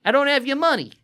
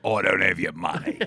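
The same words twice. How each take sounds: First: High-pitched attempt at Australian; bad Australian accent. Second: Put-on low-pitched Outback-style accent. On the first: Storyteller playing the coworker who owes money, bad Australian accent. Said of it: "that's my Australian". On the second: Co-host playing the coworker who owes money, low Outback accent. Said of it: "I thought it was more like".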